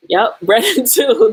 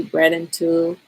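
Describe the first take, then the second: First: Louder, laughing, pleased echo; light up as you repeat it with a laugh; excited agreement. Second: Said in the usual way. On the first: Real, not acted. Streamer delighted by a chat comment, laughing echo. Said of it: "That's exactly what I was talking about".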